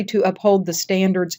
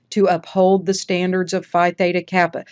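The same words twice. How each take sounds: First: "To uphold the standards" cut off as a phrase; stopping after standards. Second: "To uphold the standards of Phi Theta Kappa" unbroken; one long phrase. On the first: Teacher showing the mistake, stopping early after "standards". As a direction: wrongly end the phrase on "standards". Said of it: "and pause". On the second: Teacher showing the long oath line, no pause after "standards". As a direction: run through "standards" to "Kappa" without pausing. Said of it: "Then you got a long one". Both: Shown as a demonstration.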